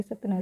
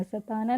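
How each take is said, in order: First: सतना read quickly, no vowel after त. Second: सताना with a full long आ after त; wrong long vowel. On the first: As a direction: run त straight into ना in सतना. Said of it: "जल्दी से इसको पढ़ रहे हैं". (सतना जल्दी से, त में अ के बिना) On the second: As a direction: open त out into ता in सताना. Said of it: "सताना नहीं पढ़ रहे". (सताना, त के बाद लंबा आ) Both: Shown as a demonstration.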